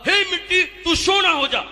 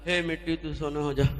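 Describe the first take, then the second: First: It is said with great enthusiasm. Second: It is said with little enthusiasm.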